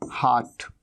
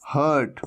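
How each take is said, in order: First: हार्ट with a long open "aa", "haat"; open aa vowel. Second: हर्ट with a short "uh", "hurt"; mistaken short vowel. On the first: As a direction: say हार्ट low as "haat", r silent. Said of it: "दिल को हम हार्ट कहते हैं". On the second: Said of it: "कई students क्या कह देते हैं". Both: Shown as a demonstration.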